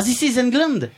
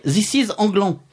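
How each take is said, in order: First: ENGLAND with its final D sounded; angielska wymowa tytułu. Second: ANGLAN with French nasal vowels, no final D; francuskie odczytanie tytułu. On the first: Real, not acted. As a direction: say England as the English title, French-accented. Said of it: "j'ai enfin compris le mail de Nico". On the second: Retold or imitated. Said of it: "vous m'aviez écrit".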